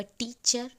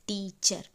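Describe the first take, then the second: First: Said in the usual way. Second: "टीचर" in two beats, टी then चर; split into syllables. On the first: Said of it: "जब हम बोल रहे हैं तो दो sound". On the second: Shown as a demonstration. Teacher showing two syllables, "टीचर" broken टी-चर. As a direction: stretch "टीचर" apart as टी-चर. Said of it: "तो दो sound आ रहा है".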